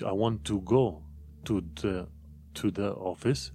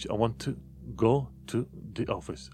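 First: Every small word is fully pronounced. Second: The small words are reduced and weak.

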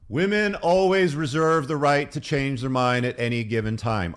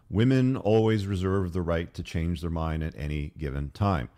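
First: It is said loudly. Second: It is said at normal volume.

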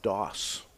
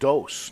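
First: It is said like the computer term. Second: It is not said like the computer term. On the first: The speaker calls it wrong. "not dos. That's because I'm an old computer guy" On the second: The speaker calls it right. "And it's dos"

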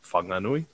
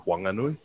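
First: The first sound is breathy, with an h. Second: The first sound is a plain w, no h. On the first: This is how most people say it. "a lot of people obviously call it Whanganui" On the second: This is how the local people say it. "they don't pronounce the H. So it's actually Whanganui. So it's like a wah"

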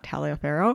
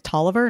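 First: The name is said long, like Taliaferro. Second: The name is said short, like Tolliver. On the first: The speaker calls it wrong. "not Taliaferro" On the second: The speaker calls it right. "It's Tolliver"

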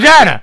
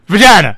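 First: It is said at normal speed. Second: It is said slowly, drawn out.

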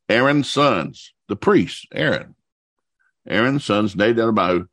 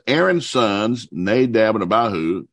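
First: It is read at a slow pace. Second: It is read at a quicker pace. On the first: "I'm going to read that again real slow" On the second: "if I read that too fast"

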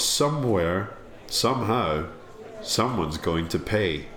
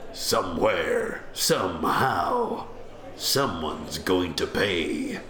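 First: It is said in the speaker's ordinary voice. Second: It is said in a put-on character voice.

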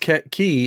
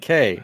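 First: The word sounds like "key". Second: The word sounds like "kay". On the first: It is said the way locals say it. "when they say no, it's key" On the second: It is read the way it is spelled. "I'm calling it K"

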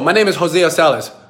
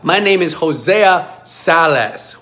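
First: The name is said quickly and casually. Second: Each syllable of the name is said clearly.

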